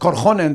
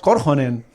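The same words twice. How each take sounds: First: The stress falls on a later syllable. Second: The stress falls on the first syllable. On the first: The speaker calls it wrong. "no digamos Korhonen" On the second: The speaker calls it right. "digamos Korhonen"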